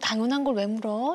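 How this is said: The voice sounds warm and affectionate. The tone suggests the child is loved. The speaker calls it right. "톤만 바꿔서"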